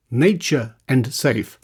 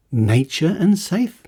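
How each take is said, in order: First: Said in the usual way. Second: Disbelieving rise on "and"; incredulous echo. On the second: Real, not acted. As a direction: repeat it in disbelief, rising on "and".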